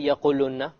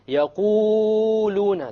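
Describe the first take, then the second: First: The long vowel is cut very short. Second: The long vowel is stretched far too long. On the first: "You don't say يَقُولُنَّ. You have to make it long" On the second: "it's a mistake to make it longer than two"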